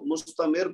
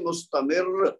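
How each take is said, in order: First: The final r is plain and short. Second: The final r is emphasized and doubled. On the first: The speaker calls it wrong. "मुस्तमिर पढ़ने की बजाय" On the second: The speaker calls it right. "रा के ऊपर जोर देंगे"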